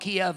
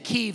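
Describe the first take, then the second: First: The name is said in the Kiev form. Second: The name is said in the Kyiv form. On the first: The speaker calls it wrong. "some people call it Kiev. That's not how you pronounce it" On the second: The speaker calls it right. "When I say Kyiv"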